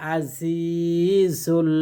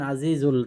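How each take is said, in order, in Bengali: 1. মাঝের ব্যঞ্জনটি একটি সাধারণ গুঞ্জনধ্বনি z। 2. মাঝের ব্যঞ্জনটি একটি নরম th-এর মতো শব্দ।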